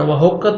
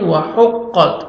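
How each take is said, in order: First: "وحقت" with a plain h for the throaty haa; wrong soft h. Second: "وحقت" slowly, with haa from the throat; correct throaty haa. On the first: Teacher showing the mistake, "وحقت" with plain h. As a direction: say "وحقت" wrongly with English-style h. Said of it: "وحقت نہیں". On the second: Teacher showing correct form, "وحقت" with throaty haa. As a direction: give "وحقت" a throaty haa and held doubled qaf. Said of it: "ہا پڑھنا ہے". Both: Shown as a demonstration.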